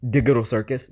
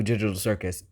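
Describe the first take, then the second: First: "Digital" said with a hard g, as in "dig". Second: Said in the usual way. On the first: Shown as a demonstration. Echoing own slip, "Digital" with a hard g. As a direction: say "Digital" as "DIG-uh-tal", questioning it. Repeats own word oddly, questioning it.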